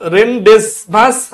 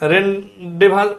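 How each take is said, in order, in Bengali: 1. মাঝখানে z বা s উচ্চারণ শোনা যায়। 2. মাঝখানে কোনো z বা s উচ্চারণ শোনা যায় না।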